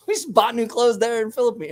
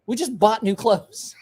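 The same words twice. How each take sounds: First: Said in the usual way. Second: Slow, high laughing delivery. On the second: Real, not acted. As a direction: say it through laughter. Laughs at own memory.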